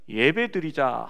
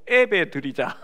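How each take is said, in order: First: The first vowel sounds like 'ye'. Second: The first vowel sounds like 'ae'. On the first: It means holding a worship service. The speaker calls it right. "예배 드리자 하지 않고" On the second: It jokingly suggests making babies. The speaker calls it wrong. "애배 드리자 해가지고 애가 셋이 됐다고"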